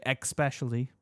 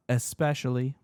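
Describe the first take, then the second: First: "especially" mispronounced as ex-PESH-uh-lee; "especially" said as if it started with EX; common mispronunciation. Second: "especially" said with an S, es-PESH-uh-lee; plain "especially" starting "ess"; correct pronunciation. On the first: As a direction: put a K sound into "especially". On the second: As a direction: say "especially" with no K sound. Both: Shown as a demonstration. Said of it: "They say".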